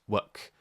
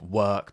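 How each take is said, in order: First: The vowel is cut too short. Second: The vowel is held long.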